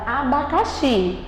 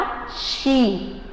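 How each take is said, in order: First: Said in the usual way. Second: "Abacaxi" slowly split into a, ba, ca, xi; syllable by syllable. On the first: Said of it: "eu coloquei a palavra abacaxi". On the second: Shown as a demonstration. Teacher showing how to say abacaxi, slow separated syllables. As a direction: spell out "Abacaxi" in slow separate beats, landing on xi. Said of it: "Como é que você vai falar?".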